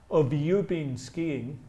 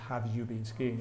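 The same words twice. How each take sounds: First: "Have" weakened to "uhv", sounding like "of"; reduced "have". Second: "Have" said with its full "a" vowel, low and soft. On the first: Teacher showing the natural pronunciation, "Have" reduced to "of". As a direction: slur "Have you" into "uhv-you", slowly. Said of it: "notice the pronunciation of". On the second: Teacher showing what not to say, "Have" in full form. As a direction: pronounce "Have" fully, as written, in "Have you been skiing?". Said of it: "I don't say". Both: Shown as a demonstration.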